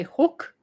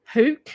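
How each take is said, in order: First: "hook" with a short oo, as in book; Australian "hook". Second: "hook" with a long oo, as in hoot; alternative "hook" pronunciation. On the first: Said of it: "that's the Australian way to say it". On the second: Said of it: "some people say". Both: Shown as a demonstration.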